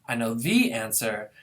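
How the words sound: The word "the" is stressed. There is only one answer, and it is the one known. "This is now with the being stressed"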